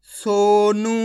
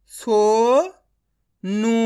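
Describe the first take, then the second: First: Said in the usual way. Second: Sonu stretched very slowly, ओ held long; drawn-out reading. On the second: Shown as a demonstration. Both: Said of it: "direct मात्रा का उच्चारण करके पढ़ेंगे".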